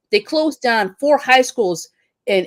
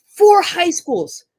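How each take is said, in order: First: Said in the usual way. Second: "Four high schools" said much higher, very slow and drawn out, with weight on "Four"; emphatic repeat. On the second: Real, not acted. Teacher repeats the school closures in outrage, drawn out. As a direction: stretch out "Four high schools" in high-pitched disbelief.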